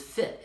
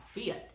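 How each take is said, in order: First: Said in the usual way. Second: "fit" drawn out as "fee-yet", higher; Southern "fit" with a Y. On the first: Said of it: "What he was saying was fit". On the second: Retold or imitated. Imitating a colleague's accent, "fit" said as "fyet". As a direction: stretch "fit" into two syllables, fee-yet. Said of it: "he always said it, like, with a Y".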